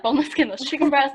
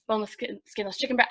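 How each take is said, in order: First: Said in the usual way. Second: Trips over "boneless skin-" before "skinless"; tongue-tied "skinless chicken breast"; stumbled phrase. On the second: Real, not acted. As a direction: stumble on "skin-", then restart. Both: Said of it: "I can't say that".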